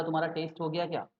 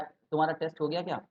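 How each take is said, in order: First: टेस्ट with a long gliding ei, as English "taste". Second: टेस्ट with a short e, as English "test". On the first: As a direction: say टेस्ट like the flavour word "taste". (टेस्ट में लंबा "एइ", जैसे स्वाद वाला taste) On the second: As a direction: say टेस्ट like the exam word "test". (टेस्ट में छोटा "ए", जैसे परीक्षा वाला test) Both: Shown as a demonstration. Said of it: "अब टेस्ट, टेस्ट, डिफरेंस देखो".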